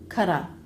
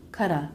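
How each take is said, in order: First: The T is a quick flap into a vowel. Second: The same.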